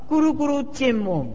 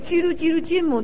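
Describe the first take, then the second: First: The first syllable is pronounced 'gu'. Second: The first syllable is pronounced 'ji'. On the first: The speaker calls it right. "那个翻译是念古啊" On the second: The speaker calls it wrong. "大家都念叽噜叽噜坚猛，这个不正确的音啊"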